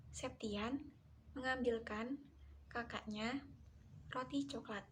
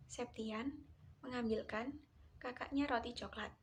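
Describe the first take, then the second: First: Septian mengambilkan kakaknya, then a clear pause before "roti coklat". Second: No break between "kakaknya" and "roti coklat"; no pause before roti coklat. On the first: Lecturer showing students where the pause falls, paused phrasing. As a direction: split the sentence so "kakaknya" and "roti coklat" are separate chunks. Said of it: "perlu diberikan jeda yang cukup". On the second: Lecturer showing students the unpaused version, running the words together. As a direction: run "kakaknya roti coklat" together as one unbroken chunk. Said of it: "tidak diberi jeda".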